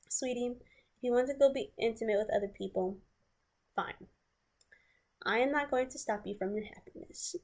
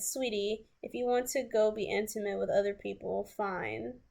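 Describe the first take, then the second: First: Sweet passive-aggressive. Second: Said in the usual way. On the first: Retold or imitated. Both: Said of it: "This is how he said it, though".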